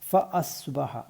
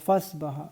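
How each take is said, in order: First: The throat sound before 'asbaha' is kept. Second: The throat sound before 'asbaha' is dropped. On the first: The speaker calls it right. "അത് വിട്ടുപോകാതെ പ്രത്യേകം ശ്രദ്ധിക്കുക" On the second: The speaker calls it wrong. "ഈ ഒരു ആയിൻ്റെ ഉച്ചാരണം വിട്ടുപോകും"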